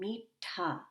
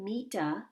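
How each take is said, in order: First: The t has a puff of air after it. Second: The t has no puff of air after it. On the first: The speaker calls it right. "I'm saying meetha. So do you hear me kind of inserting an H sound" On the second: The speaker calls it wrong. "I'm not saying meeta"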